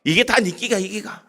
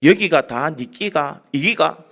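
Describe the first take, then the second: First: The Gyeongsang line again at normal pace, no laugh; preacher repeating the Gyeongsang line for the joke; Gyeongsang accent. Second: Slow, laughing Gyeongsang dialect question; Gyeongsang accent. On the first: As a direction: restate the dialect words plainly to explain them. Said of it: "이게 무슨 말입니까?". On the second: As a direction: drawl the Gyeongsang words out slowly through a chuckle. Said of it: "경상도 사람이 이렇게 얘기합니다". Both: Retold or imitated.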